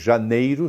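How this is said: The word is said in full, with the i.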